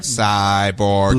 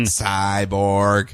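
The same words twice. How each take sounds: First: Low robotic voice; flat mechanical robot. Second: Monotone robot voice. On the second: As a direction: say it like a machine. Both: Pretend. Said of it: "Do you like my robot voice?".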